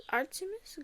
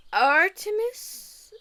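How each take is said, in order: First: "Artemis" said high but much softer, rising at the end; soft repeat. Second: "Artemis" stretched slow and high with a falling end; drawn-out delight. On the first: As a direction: breathe "Artemis" again, softly. Repeating the name softly. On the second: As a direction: linger on "Artemis" lovingly. Savoring the goddess name. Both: Real, not acted.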